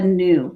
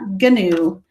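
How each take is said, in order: First: The word starts with a plain N sound. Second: The word starts with a hard G sound. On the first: The speaker calls it right. "So you don't say the G at the beginning of that. You only hear the N" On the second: The speaker calls it wrong. "It's not gnu"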